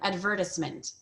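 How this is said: It is said in a British accent. "British or Australian advertisement"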